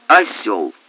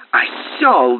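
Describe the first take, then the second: First: Low, even and unhurried; calm. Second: A raised, enraged outburst; furious yell. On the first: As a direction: say it coolly, without heat. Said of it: "спокойно проговорил Тиррель". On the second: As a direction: bellow the insult in fury. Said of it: "бешено возопил Муре". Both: A narrator's reading.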